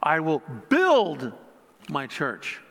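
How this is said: The word 'build' is stressed. "putting an emphasis on each word"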